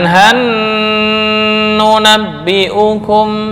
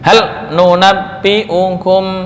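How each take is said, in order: First: The l merges into a doubled n sound. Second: The l is pronounced clearly before the n. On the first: The speaker calls it wrong. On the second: The speaker calls it right. "dibaca idhar. Idhar jelas"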